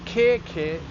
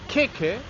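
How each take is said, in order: First: The vowels are long. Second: The vowels are short. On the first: It means armpit. "is an armpit" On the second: It means cake. "without any macron, is a cake"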